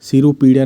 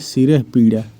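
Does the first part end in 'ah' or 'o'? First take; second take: o; ah. First: The first part ends in an 'o' vowel. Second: The first part ends in a breathy 'ah'. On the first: The speaker calls it wrong. "नहीं" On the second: The speaker calls it right. "शुद्ध शब्द है"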